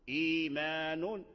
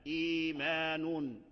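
No difference in how they are said.

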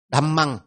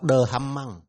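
First: The opening consonants merge into one syllable. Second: The opening consonants are split into two syllables. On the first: The speaker calls it right. "hai phụ âm này nhập lại" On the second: The speaker calls it wrong. "chứ đừng đọc đờ hầm măng"

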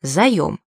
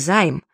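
First: The word has two syllables, ending in 'yom'. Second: The word has one syllable, ending in 'aim'. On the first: The speaker calls it right. "следует произносить именно так — «заем»" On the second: The speaker calls it wrong. "Но никак не займ, что часто можно услышать"

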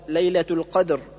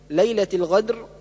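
First: The second word has a deep q sound. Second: The second word has a gh sound. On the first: The speaker calls it right. "والصواب ليلة القدر" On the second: The speaker calls it wrong. "جعل القاف غينا"

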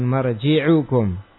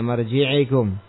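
First: The vowel after the 'ain' is u. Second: The vowel after the 'ain' is i. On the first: The speaker calls it right. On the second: The speaker calls it wrong.

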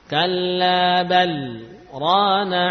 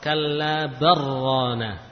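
First: A brief silent stop comes after bal. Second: The l merges into the r without a break. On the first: The speaker calls it right. "Namun pada kalimat ini ya dibaca saktah" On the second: The speaker calls it wrong. "Jangan dibaca idgham kallabarrana"

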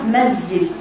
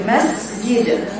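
First: The s sound is released without audible breath. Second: The s sound is released with audible breath. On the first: The speaker calls it wrong. "لو لم نخرج هواء مع السين لأصبحت مسجد" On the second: The speaker calls it right. "لا بد من إخراج هواء مع حروف الهمس"

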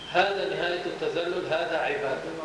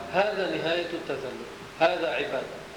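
Both takes have the same delivery.

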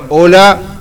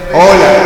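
First: The voice sounds dry, with no added effect. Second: The voice has added reverb on it. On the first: "No suena nada, no se nota" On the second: "Está activado. Hola, reverber"

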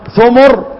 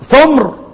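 First: Both syllables have the vowel u: thumur. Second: The middle consonant has no vowel: thumr. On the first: "فبالضم" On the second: "ومن الإسكان"

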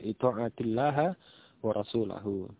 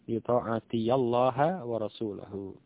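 First: The word runs straight into llaha without ya. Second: A ya syllable is heard before llaha. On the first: "Kalau sukun" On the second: "Kalau fathah"

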